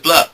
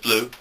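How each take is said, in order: First: The word ends in an ur vowel. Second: The word ends in an oo vowel. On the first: "you can also pronounce it as blur" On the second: "you can pronounce it as blue"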